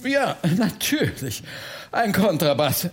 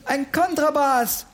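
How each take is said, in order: First: Lightly voiced relief; relieved. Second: Put-on high-pitched boy calling out the answer; exclaiming. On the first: Bertha repeats Oliver's answer, mildly relieved. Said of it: "wiederholte Bertha erleichtert". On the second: Oliver suddenly names the instrument, exclaiming. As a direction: burst out with the answer. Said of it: "rief Oliver".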